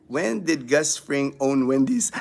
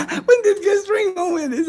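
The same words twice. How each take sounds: First: Said in the usual way. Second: High-pitched, laughing through the words. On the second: Real, not acted. Host repeating a viewer's Gus Fring question, laughing. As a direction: repeat it cracking up, voice shooting up.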